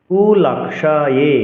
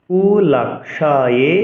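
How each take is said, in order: The two takes are said the same way.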